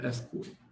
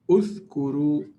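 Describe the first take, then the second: First: The word begins with the vowel a. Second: The word begins with the vowel u. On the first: The speaker calls it wrong. "or athkuru" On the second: The speaker calls it right. "So if I start like this, I say uthkuru"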